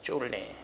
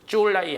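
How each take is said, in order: First: The name is said with Korean syllable readings. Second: The name is said with Mandarin syllable readings. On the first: This is the old pronunciation from centuries ago. "오백 년 전 발음이야" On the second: This is the modern pronunciation. "지금 현대 발음이고"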